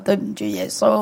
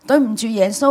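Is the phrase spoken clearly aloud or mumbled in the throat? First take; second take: mumbled; aloud. First: It is mumbled quietly in the throat. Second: It is spoken clearly and audibly aloud. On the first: The confession cannot be heard by the one praying. The speaker calls it wrong. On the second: The confession can be heard by the one praying. The speaker calls it right.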